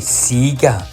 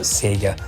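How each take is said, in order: First: Sega is said the Australian way. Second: Sega is said the non-Australian way. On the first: "why do the Australians say Sega" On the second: "and not Sega"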